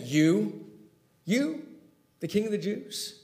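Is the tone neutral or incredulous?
incredulous. It sounds disbelieving and mocking.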